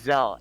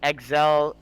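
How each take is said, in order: First: The name begins with a 'z' sound. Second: The name begins with an 'eks' sound. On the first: The speaker calls it right. "You say the X like a Z" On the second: The speaker calls it wrong. "Anyone that's saying"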